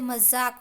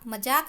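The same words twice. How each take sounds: First: The middle consonant is a 'z' sound. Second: The middle consonant is a 'j' sound. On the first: The speaker calls it right. "होता है" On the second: The speaker calls it wrong. "नहीं होता है"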